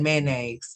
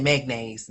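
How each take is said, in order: First: Mayonnaise with a slight nasal g, mæneɡz; her own mayonnaise. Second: Magnaise with a hard g in the middle; mispronounced mayonnaise. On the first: Correcting herself to her own mayonnaise. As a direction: say it mæ-neigz, the home way. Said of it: "I said mayonnaise". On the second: Wrong magnaise the way she grew up saying it. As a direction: say magnaise, mag-naise not mayo-naise. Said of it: "I said magnaise". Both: Shown as a demonstration.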